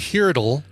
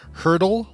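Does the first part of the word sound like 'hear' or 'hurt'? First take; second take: hear; hurt. First: The first part sounds like the word 'hear'. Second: The first part rhymes with 'wordle', like 'hurt'. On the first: "oh, H-E-A-R, but then it doesn't rhyme with wordle" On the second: "Do you pronounce it hurdle like wordle?"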